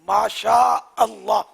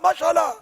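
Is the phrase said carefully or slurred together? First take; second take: careful; slurred. First: Each word is said clearly and separately. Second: The words are run together and slurred. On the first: The speaker calls it right. "ये ये बोलना सीखें।" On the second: The speaker calls it wrong. "ये क्या होता है माशाल्लाह? मसाला तो किचन में होता है।"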